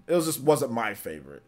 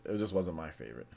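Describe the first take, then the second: First: Said in the usual way. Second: Low, softer murmured repeat; quiet repeat. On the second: Shown as a demonstration. Streamer softly repeats his verdict, quieter. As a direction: drop the voice as you say it again.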